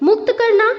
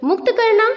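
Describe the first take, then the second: The two takes are said the same way.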